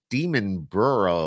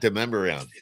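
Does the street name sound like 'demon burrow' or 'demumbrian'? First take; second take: demon burrow; demumbrian. First: The name sounds like 'demon burrow'. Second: The name sounds like 'demumbrian'. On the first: The speaker calls it wrong. "I used to call that Demon Burrow" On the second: The speaker calls it right. "Not Demumbrian"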